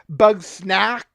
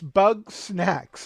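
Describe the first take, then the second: First: The name ends with a k sound. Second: The name ends with a ks sound. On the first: The speaker calls it wrong. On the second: The speaker calls it right. "it's bug snacks, like snacks that are made out of bugs"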